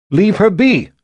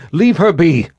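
First: Put-on high, loud girl's repeat; defiant girl. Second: Put-on high, loud girl's cry; young girl defiant. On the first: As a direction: refuse to back down, high and loud. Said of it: "Gillian repeated". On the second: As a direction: stand up for her, high and loud. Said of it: "Gillian stepped between them".

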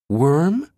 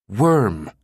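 First: High, rising incredulous groan; groaned question. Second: Falling, firm confirmation; smoldering. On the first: Brinkerhoff balks at the mundane term, groaning. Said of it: "Brinkerhoff groaned". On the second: Jabba confirms the term to Brinkerhoff, smoldering. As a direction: state it with smoldering finality. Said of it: "Jabba smoldered". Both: A narrator's reading.

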